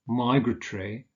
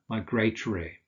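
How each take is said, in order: First: The stress is on the first syllable. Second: The stress is on a later syllable. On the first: "the stress is usually on the first syllable" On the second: "a variant being"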